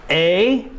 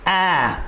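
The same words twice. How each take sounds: First: The vowel sounds like the letter's name. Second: The vowel is short, not the letter's name. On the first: "We'll say the long sound and then the short sound" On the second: "and then the short sound"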